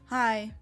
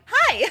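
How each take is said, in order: First: It sounds cold and unfriendly. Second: It sounds warm and friendly.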